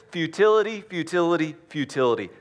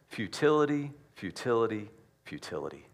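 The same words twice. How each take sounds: First: Fiery preacher's repeated futility; emphatic repetition. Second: Trailing off to a hush; fading repetition. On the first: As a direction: hammer the word home and let it drop. Repeated word shouted, then falling. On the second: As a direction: let the word die away three times. Repeated word dying away. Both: Acted.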